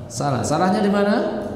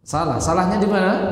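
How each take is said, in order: Both takes have the same delivery.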